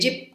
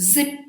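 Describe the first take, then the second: First: The word begins with a j sound. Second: The word begins with a z sound. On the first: The speaker calls it wrong. "ಇದು ತಪ್ಪು" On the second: The speaker calls it right. "We have to say Z"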